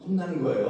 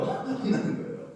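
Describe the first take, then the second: First: Said in the usual way. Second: 혼나는 거예요 said through a laugh, slower; laughing repeat. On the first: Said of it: "repeat with laugh". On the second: Shown as a demonstration. Pastor laughs as he repeats 혼나는 거예요 to the flock.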